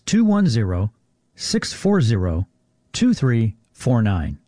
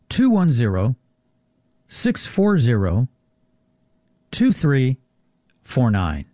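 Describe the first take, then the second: First: The number is said at normal speed. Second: The number is said more slowly.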